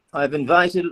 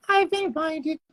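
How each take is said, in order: First: Said in the usual way. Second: High falsetto cartoon mouse; Mickey Mouse. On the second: Streamer announcing an invitation in squeaky cartoon mouse voice. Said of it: "do your Mickey Mouse voice".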